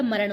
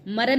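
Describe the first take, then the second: First: मरण ending in retroflex ण; correct nasal. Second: मरण ending in dental n; wrong nasal. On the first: Teacher correcting the mistake, मरण with retroflex ण. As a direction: curl the tongue for मरण's last sound. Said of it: "मरण होता है". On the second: Teacher showing the mistake, मरण with plain n. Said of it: "मरण नहीं होता". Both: Shown as a demonstration.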